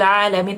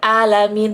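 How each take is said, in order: First: It begins with a throaty ain consonant. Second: It begins with a plain vowel. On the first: The speaker calls it right. "pakai ain" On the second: The speaker calls it wrong. "Bukan sekedar alamin"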